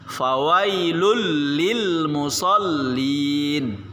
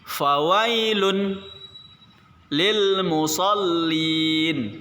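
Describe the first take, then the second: First: The first two words are run together. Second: The first two words are read apart.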